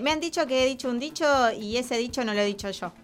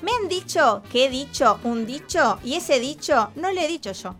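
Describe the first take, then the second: First: It is said at a faster pace. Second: It is said at a slower, ordinary pace.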